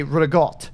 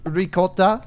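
First: "ricotta" as rih-GOT; "ricotta" cut short, ending on t; East Coast Italian-American pronunciation. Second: "ricotta" with a hard c and final a; "ricotta" in full, ending on a vowel; standard pronunciation. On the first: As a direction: turn the c of "ricotta" to g and drop the a. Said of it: "East Coast Italian United States". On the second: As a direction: say "ricotta" as rih-KOT-ah. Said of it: "that would be the correct pronunciation". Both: Shown as a demonstration.

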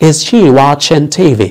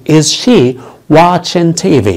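First: Said in the usual way. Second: Drawn out word by word; slow teaching model of Is she watching TV; slow demo. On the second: Shown as a demonstration. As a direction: say it slowly for the class. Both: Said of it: "هل هي بتشاهد التلفزيون؟".

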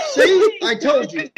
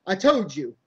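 First: Very high, squealed insistence; frantic vindication. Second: Raised but controlled insistence; insistent. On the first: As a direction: shriek it as proof at last. Frantic vindication about the doll. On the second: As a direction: press the point, coming down from the squeal. Repeats it, lower. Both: Acted.

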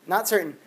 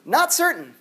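First: Said in the usual way. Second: Not punched high; stress on not. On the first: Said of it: "repeating the answer". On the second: Shown as a demonstration. Teacher correcting the class, stress on not. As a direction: hit Not in Not certain. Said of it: "answering his own question".

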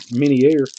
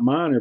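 First: "Minier" said min-YAIR; Frenchified Minier. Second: "Minor" said MY-ner; plain Minor. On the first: Mocking a French-sounding surname, "Minier" as min-yair. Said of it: "he act like he's French". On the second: Refusing the fancy name, "Minor" as MY-ner. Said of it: "I'm not gonna call him Minier". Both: Shown as a demonstration.

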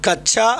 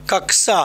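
First: "कक्षा" said as kach-chha; the loose everyday "kachchha" for "कक्षा"; common mispronunciation. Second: "कक्षा" said as kak-sa; careful k-s cluster in "कक्षा", no chha; correct pronunciation. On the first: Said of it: "यहाँ होना चाहिए क्या". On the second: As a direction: sound a clear k before the s in "कक्षा". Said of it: "कक्षा होना चाहिए". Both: Shown as a demonstration.

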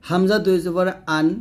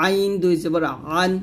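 First: Plain glottal onset on আন, no squeeze; hamza sound. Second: আইন squeezed from mid-throat, ending আন; pressed ʿayn. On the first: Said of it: "হলকের শুরু থেকে বলতে হবে". (হামজা হলকের শুরু থেকে) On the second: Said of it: "হলকের মাঝখান থেকে চাপ দিয়ে". (আইন হলকের মাঝখান থেকে চাপ দিয়ে) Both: Shown as a demonstration.

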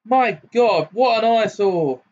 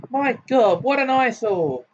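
First: Put-on much higher, loud, haughty girl; girl's voice ringing out. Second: Put-on much higher, distinct haughty girl's voice. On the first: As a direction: ring it out scornfully from outside. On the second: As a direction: sound like a snobbish young lady. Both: A narrator's reading. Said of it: "rang out a girl's voice".

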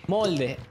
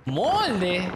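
First: Said in the usual way. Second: Drawn-out, incredulous MOLDE with a pitch leap; incredulidad. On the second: Real, not acted. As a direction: stretch MOLDE and swoop up in disbelief. Repite incrédulo la palabra desconocida. (molde alargado, con tono incrédulo)

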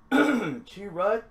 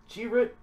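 First: Chirrut with a fuller second vowel, "CHEE-rut"; trying a pronunciation. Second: Chirrut with a short second vowel, "CHEE-rit"; alternate pronunciation. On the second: Second try at the name. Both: Shown as a demonstration.

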